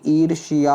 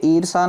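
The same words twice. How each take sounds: First: ईर्ष्या said "eer-shi-yaa"; correct pronunciation. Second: ईर्षा said "eer-saa", no y; wrong pronunciation. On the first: Teacher corrects students, ईर्ष्या as "eer-shi-yaa". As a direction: sound shiya at the end of ईर्ष्या. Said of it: "शिया". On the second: Teacher shows the error, ईर्षा as "eer-saa". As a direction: end ईर्षा on plain saa. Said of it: "ईर्षा ना होती". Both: Shown as a demonstration.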